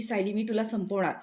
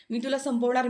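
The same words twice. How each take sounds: First: Mild mock threat. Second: Mock shout. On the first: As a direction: start the threat without raising the voice. ("संपवणार" साध्या आवाजात धमकी देत) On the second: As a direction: repeat the threat, pushing it up. ("संपवणार" जोर देऊन, चढ्या आवाजात) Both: A narrator's reading. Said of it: "खूप जोरजोरात ओरडते".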